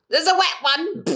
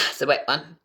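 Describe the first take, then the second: First: Catchphrase squealed much higher and a bit louder; imitated catchphrase. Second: Said in the usual way. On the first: Imitating a streamer's catchphrase, squealed much higher. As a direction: screech it like a silly catchphrase.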